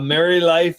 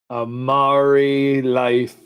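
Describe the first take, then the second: First: It is said in a plain, ordinary accent. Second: It is said in an exaggerated pirate accent.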